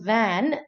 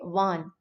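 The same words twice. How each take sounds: First: It has the standard English vowel. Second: It has a Malayali-influenced vowel. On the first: The speaker calls it right. "instead of saying van" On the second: The speaker calls it wrong. "we tend to say van"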